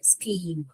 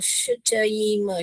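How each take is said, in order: First: It begins with an sk sound. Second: It begins with an sh-ch sound. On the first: The speaker calls it right. "हमको यहाँ पर स्कीम पढ़ना है" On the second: The speaker calls it wrong. "मान लीजिए च पढ़ रही हूँ"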